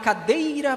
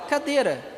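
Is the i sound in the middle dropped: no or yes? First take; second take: no; yes. First: Said in full, keeping the i sound. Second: The i sound in the middle is dropped. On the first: The speaker calls it wrong. "Vocês falam assim? Não" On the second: The speaker calls it right. "A gente fala cadeira"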